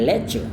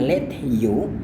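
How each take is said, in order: First: The t and y merge into a ch sound. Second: The t and y sounds stay separate. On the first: "bunyinya berubah menjadi c" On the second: "Dia tadi tidak lafalkan dengan let you"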